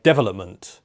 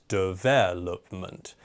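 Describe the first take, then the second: First: Development said wrongly as DEvelopment, first syllable hit; mock learner's DEvelopment stress. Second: Development, slow, with the stress on VEL; deVELopment, second syllable hit. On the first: Host imitating a learner's wrong DEvelopment stress. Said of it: "put the stress on the first syllable". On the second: Teacher showing learners deVELopment with correct stress. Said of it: "the stress needs to go on the second syllable". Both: Shown as a demonstration.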